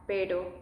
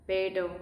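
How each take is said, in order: No difference in how they are said.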